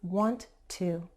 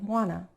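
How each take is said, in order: First: Both words are said fully and separately. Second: The words blend into one reduced form. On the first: "the phrase is want to" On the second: "In fast speech, many people say wanna"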